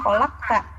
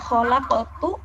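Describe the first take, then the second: First: The word ends with an a vowel. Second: The word ends with a u vowel. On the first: The speaker calls it wrong. "ini dibacanya fathah" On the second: The speaker calls it right. "harokatnya harusnya domah"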